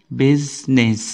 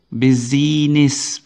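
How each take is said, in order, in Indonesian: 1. Tidak ada bunyi vokal i tambahan yang terdengar di tengah. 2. Ada bunyi vokal i tambahan yang terdengar di tengah. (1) "Tidak ada suara i-nya di situ" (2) "nggak ada business, bukan"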